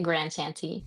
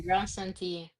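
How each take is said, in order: First: The name is said with an American accent. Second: The name is said with a French-style pronunciation.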